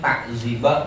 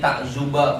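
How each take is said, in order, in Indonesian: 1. Vokal setelah z adalah 'i'. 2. Vokal setelah z adalah 'u'. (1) "wa kasriha" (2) "bidom mizain"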